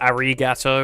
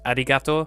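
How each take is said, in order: First: It is said with an English accent. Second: It is said with a Japanese accent. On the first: The speaker calls it wrong. "in an English accent" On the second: The speaker calls it right. "it's a small difference, but it's massive"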